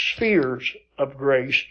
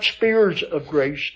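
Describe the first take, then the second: First: The first word sounds like spheres, with f. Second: The first word sounds like spears, with p. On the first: The speaker calls it right. "I try to pronounce it spheres" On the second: The speaker calls it wrong. "most people think you say spears"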